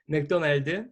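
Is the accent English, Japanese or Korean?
Korean. It is said in a Korean accent.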